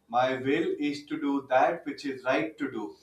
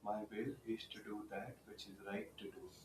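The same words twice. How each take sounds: First: It is said loudly. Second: It is said at normal volume.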